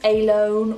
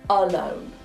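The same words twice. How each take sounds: First: The first vowel is a full, clear vowel. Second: The first vowel is a weak, neutral schwa. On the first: The speaker calls it wrong. "It's not alone" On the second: The speaker calls it right. "the schwa is present"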